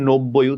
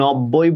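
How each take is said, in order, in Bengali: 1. প্রথম স্বরধ্বনিটি একটি 'o' ধ্বনি। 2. প্রথম স্বরধ্বনিটি একটি খোলা 'a' ধ্বনি। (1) "উচ্চারণ যেহেতু নো করি ওই জন্য নো" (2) "আমরা নব্বই বলি না"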